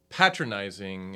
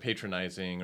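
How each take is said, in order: First: Patronizing is said in a British way. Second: Patronizing is said in an American way. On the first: "he'll say patronizing" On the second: "instead of patronizing"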